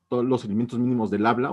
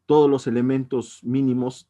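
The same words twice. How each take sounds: First: Said in the usual way. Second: Teacher stressing "todos" for students to remember. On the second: Shown as a demonstration. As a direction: lean hard on "todos" to drive it home. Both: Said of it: "se nos debe quedar en la mente".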